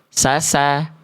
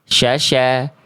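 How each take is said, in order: First: The consonant is a plain hissing s sound. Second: The consonant is a hushing sh sound. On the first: "Jadi jangan sampai dibaca sasa" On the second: "ataupun syasha"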